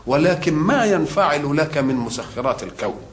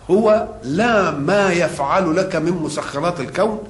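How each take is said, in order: First: ينفعل weighted, the line falling after it; stress on ينفعل. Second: يفعل set apart, with the line rising toward it; stress on يفعل. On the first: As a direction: press ينفعل as the answer to يفعل. (نبرة على كلمة ينفعل مع نغمة هابطة) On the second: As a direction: lean on يفعل to set it against ينفعل. (نبرة على كلمة يفعل) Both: Shown as a demonstration.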